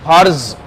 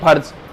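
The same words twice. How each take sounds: First: It is said with a forceful z sound. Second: It is said with a plain j sound. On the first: "तो उसे फिर जोर देके बोलना पड़ेगा आपको।" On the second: "अगर नीचे नुक्ता लगते ही जैक पे हम बोलते हैं फर्ज"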